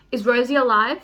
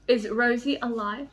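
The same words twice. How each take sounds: First: Urgent asking. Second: Said in the usual way. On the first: Real, not acted. Repeating the question urgently.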